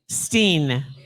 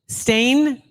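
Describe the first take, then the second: First: The vowel sounds like the one in 'seen'. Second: The vowel sounds like the one in 'rain'. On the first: The speaker calls it wrong. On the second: The speaker calls it right.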